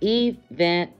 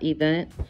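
First: It is said in an unusual, imitated pronunciation. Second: It is said in the ordinary, standard pronunciation. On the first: It copies how someone else says the word. The speaker calls it wrong. "like Tisha says" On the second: It is the usual way to say the word. The speaker calls it right. "not event"

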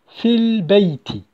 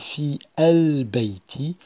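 First: The two words are linked into one unit. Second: The two words are said separately, not linked. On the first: "mais plutôt" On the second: "Je n'ai pas prononcé"

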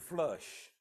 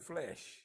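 First: The vowel sounds like the one in 'flush'. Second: The vowel sounds like the one in 'flesh'. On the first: The speaker calls it wrong. "that's what she pronounced it" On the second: The speaker calls it right. "but this is the flesh"

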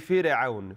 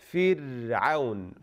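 First: The r is cut short with a bounce. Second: The r is held for a moment. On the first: The speaker calls it wrong. "they do qalqala on it. They say fir'aun" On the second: The speaker calls it right. "you have to last on it for a bit, such as this"

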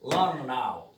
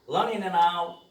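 First: The -ing ending is reduced and linked, faster. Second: The -ing ending is fully pronounced, more slowly.

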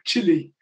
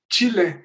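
First: The word sounds like 'chilly', rhyming with 'silly'. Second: The word sounds like 'CHEE-leh', ending in an 'eh' vowel. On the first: It sounds like the English word for cold. The speaker calls it wrong. "we used to pronounce it like uh, chili, which yeah. is like uh, cold" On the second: It is the way Spanish speakers say the country's name. The speaker calls it right. "who spoke Spanish and they said chile, I was ah oh, right, of course"

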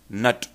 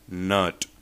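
First: The vowel is short and clipped. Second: The vowel is slightly lengthened. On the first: The speaker calls it wrong. "we mispronounce them as" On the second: The speaker calls it right. "The correct is"

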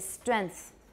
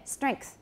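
First: The nasal is not velar and no k sound is heard. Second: A velar nasal is followed by a clear k sound. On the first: The speaker calls it wrong. "a lot of Taiwanese say strength" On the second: The speaker calls it right. "Can you all hear the K?"

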